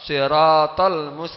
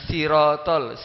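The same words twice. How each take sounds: First: The first s is a heavy, emphatic s. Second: The first s is a plain, light s. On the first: The speaker calls it right. "tapi sat siratal mustaqim" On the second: The speaker calls it wrong. "Bukan siratal sin"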